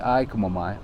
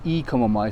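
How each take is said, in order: First: The first word sounds like the letter I. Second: The first word sounds like the letter E. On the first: The speaker calls it right. "say I Komo Mai" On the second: The speaker calls it wrong. "you don't say E Komo Mai"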